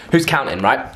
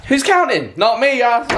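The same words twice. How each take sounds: First: Said in the usual way. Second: Playful high repeat. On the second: Shown as a demonstration. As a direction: toss "Who's counting?" up high, jokingly.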